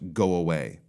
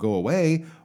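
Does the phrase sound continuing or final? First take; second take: final; continuing. First: The pitch falls, sounding like a sentence end. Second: The pitch stays up, sounding unfinished.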